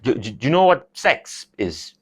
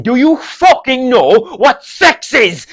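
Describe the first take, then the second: First: Put-on halting, stammered Kerry-accented repeat; dad's Kerry accent. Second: Put-on loud, high, slow Kerry-accented yell; exasperated dad. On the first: Dad repeating the question to son, hesitant Kerry accent. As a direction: mumble it like an awkward Kerry dad. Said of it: "He has a really thick, heavy Kerry accent". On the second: Dad forced to repeat himself to son, exasperated shout. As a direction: hammer it out as a fed-up father. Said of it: "he'll get really annoyed if he has to repeat himself".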